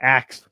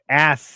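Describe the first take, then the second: First: The s sound comes after the k. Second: The s sound comes before the k. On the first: The speaker calls it wrong. "not a- axe" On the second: The speaker calls it right. "No, ask, ask"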